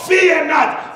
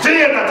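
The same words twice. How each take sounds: First: The voice is steady and confident. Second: The voice trembles as if afraid.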